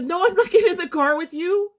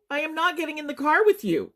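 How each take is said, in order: First: Much higher, rushed retold protest; panicked refusal. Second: High, spaced-out "I am not", falling at the end; emphatic panicked refusal. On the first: Survivor retelling her answer to a stranger's offer, panicked. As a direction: blurt the refusal in rising panic. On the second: Retold or imitated. Survivor repeating her refusal to a stranger, distressed and insistent. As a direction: refuse firmly with "am not" uncontracted, voice raised in pitch.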